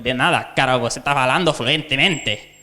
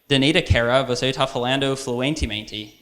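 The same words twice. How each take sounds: First: It is said with a Spanish accent. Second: It is said with an English accent. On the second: "And like the English"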